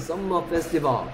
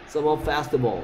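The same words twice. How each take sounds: First: The two m sounds are said separately. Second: The two m sounds merge into one. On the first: The speaker calls it wrong. "우리가 뭐 보면 뭐 썸머 페스티벌 막 이러잖아" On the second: The speaker calls it right. "썸머 페스티벌 이래야 돼"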